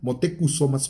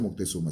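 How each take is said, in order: First: The name is said as Mo-te-cu-so-ma. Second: The name is said as Moc-te-zu-ma. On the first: The speaker calls it right. "se pronuncia Motecusomas Coyotzi" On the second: The speaker calls it wrong. "no se pronuncia Moctezuma"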